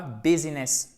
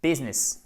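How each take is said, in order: First: "business" as bi-zi-ness, middle i sounded; French-style "business" in three syllables; wrong three-syllable business. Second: "business" as BIZ-ness, two syllables; short English "business", stressed first; correct English business. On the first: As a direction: say "business" with every vowel, as a mistake. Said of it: "ou non pas business". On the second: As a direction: say "business" with the middle i silent. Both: Shown as a demonstration.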